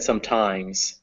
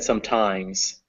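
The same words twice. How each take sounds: First: The stress is on the second syllable. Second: The same.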